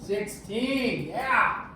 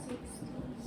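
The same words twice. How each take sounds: First: Triumphant, louder cheer; celebrating getting it right; excited. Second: Whispering the answer to self; breathy unvoiced whisper. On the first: Student gets answer right. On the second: Student works out answer. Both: Real, not acted.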